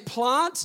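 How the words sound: The vowel is pronounced the South Australian way. "I'm South Australian, right? ... I say plant"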